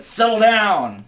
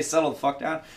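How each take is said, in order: First: Higher, louder and slow "Settle down"; stern slow parent command; firm dad voice. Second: Said in the usual way. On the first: Retold or imitated. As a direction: shut it down like a dad. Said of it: "but I said". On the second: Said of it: "I didn't say".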